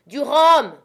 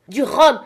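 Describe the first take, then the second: First: High, loud desperate demand; captain to Jim after the fight, desperate shout; urgent cry. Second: High, loud insistent demand; captain insisting to Jim, loud repeated demand; repeated cry. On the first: Acted. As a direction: cry out for rum, shaken. Wounded captain demanding rum. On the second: A narrator's reading. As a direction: shout it again, more urgent. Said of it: "répéta-t-il".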